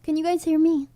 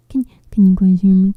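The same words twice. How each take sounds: First: Said in the usual way. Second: Loud, urgent call into the mic; frustrated loud call to viewers; shouting to be heard. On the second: Real, not acted. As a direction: yell it so the chat can hear. Calling out to silent chat.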